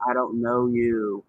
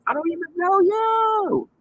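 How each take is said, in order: First: Said in the usual way. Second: High, slow sing-song put-down; exaggerated high mocking tone. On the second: Mocking the person who confronted her.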